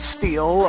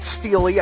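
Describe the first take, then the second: First: The name has one syllable, ending in 'l'. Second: The name has two syllables, ending in 'ee'. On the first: The speaker calls it right. "it's Steel" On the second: The speaker calls it wrong. "it's not Steely"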